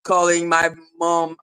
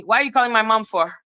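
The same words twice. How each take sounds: First: Lower, scornful echo of the complaint; mocking low repeat. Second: Fast scolding. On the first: Real, not acted. Scoffing at the troll for calling her mom, low and mocking. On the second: Retold or imitated. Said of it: "And I'm like".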